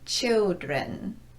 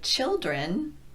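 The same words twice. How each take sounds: First: The L is made with the lips, like W. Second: The L is a dark L made with the tongue. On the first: The speaker calls it wrong. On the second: The speaker calls it right.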